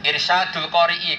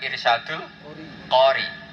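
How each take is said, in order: First: The final glottal stop and vowel are pronounced. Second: The final glottal stop and vowel are dropped.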